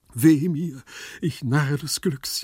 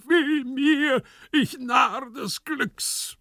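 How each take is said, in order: First: Raised, drawn-out moan; plaintive lament, slowing at the end; wailing lament. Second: Loud, high, drawn-out tragic wail; anguished stage shout, stretched at the end; desperate cry. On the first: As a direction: moan theatrically in self-pity. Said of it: "jammerte Gumpellino". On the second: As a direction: cry out in theatrical despair. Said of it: "rannte im Zimmer umher und schrie". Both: Acted.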